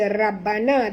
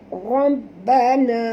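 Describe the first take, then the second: First: The initial r sounds thin and light. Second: The initial r sounds thick and heavy. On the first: The speaker calls it wrong. "Jangan baca rabbana" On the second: The speaker calls it right. "Ra tebal"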